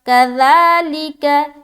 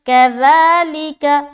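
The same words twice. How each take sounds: No difference in how they are said.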